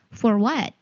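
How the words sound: It has an American accent with the R sounded.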